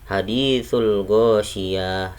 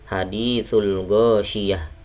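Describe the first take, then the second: First: The vowel after the y is held long. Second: The vowel after the y is kept short. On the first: The speaker calls it wrong. "Bukan bacanya haditsul ghasyiyah, salah" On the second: The speaker calls it right. "Bacanya harus pendek di sini yahnya"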